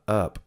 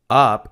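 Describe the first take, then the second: First: The word is said weakly with a reduced vowel. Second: The word is said strongly with a full vowel. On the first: The speaker calls it right. "they're often very weak in their pronunciation" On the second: The speaker calls it wrong. "it's not up"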